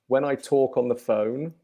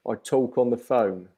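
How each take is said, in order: First: It is said in a standard British accent. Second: It is said in a London accent.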